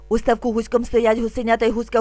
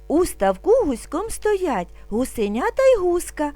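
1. Вимовляється дуже швидко. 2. Вимовляється трохи швидше. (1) "І дуже швидко" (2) "А тепер трошки швидше"

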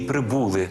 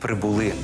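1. Наголос падає на склад перед останнім. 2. Наголос падає на останній склад. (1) "Не ... «прибули»" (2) "Наголошувати треба останній склад"

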